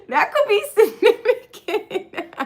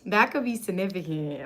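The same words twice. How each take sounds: First: Laughing through it, slower and high; giggling the line. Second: Said in the usual way. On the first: Real, not acted. Laughing to viewers, high and slow.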